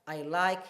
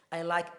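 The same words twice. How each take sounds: The two takes are said the same way.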